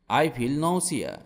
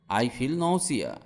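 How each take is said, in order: Both takes have the same delivery.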